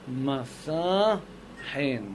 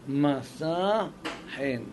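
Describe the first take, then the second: Both takes have the same delivery.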